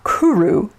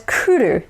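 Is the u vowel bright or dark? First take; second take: dark; bright. First: The u vowels are dark and full. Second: The u vowels are bright and short. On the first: The speaker calls it wrong. "not kuru" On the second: The speaker calls it right. "notice that it's kuru"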